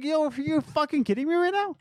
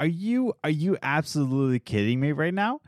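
First: High-pitched exasperated disbelief; retold outburst, pitched way up without shouting; frustrated. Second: Restrained exasperated disbelief; frustrated. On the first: Employee recalling being gaslit by the boss, frustrated. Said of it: "I got so frustrated". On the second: Retold or imitated. Employee retelling the question to the boss, frustrated. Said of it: "I was so frustrated".

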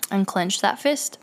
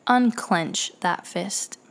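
First: Very calm voice. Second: Slow, softer, steady command; calm him down without showing fear. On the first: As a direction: stay steady and unafraid. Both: Retold or imitated. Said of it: "I tell him in a very calm voice".

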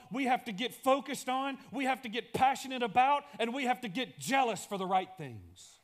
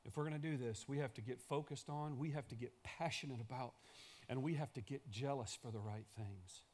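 First: Higher and louder, pressing each clause; a big public call; loud preaching. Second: A soft echo of the big call; quiet repeat. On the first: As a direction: proclaim it to the room. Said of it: "same lines repeated quietly". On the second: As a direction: lower and much softer, drawn inward. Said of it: "same lines said loud before". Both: Shown as a demonstration.

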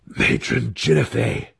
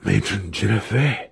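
First: Higher, amazed exclamation; gasped. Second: Hushed-style excited exclamation; excited whisper. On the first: Wizard sees the completed summons, gasping in amazement. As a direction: gasp the name out in wonder. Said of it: "gasped again when the summons was complete". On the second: Wizard sees his summons working, excited stage whisper. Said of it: "heard Alton's excited whisper". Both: A narrator's reading.

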